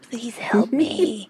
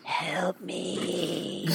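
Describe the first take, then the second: First: Slow, eerie pleading ghost voice; mock spooky. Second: Hushed, much softer ghostly moan; mock spooky. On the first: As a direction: plead like a haunting spirit. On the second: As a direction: breathe it like a faint ghost. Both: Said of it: "You sound spooky as hell".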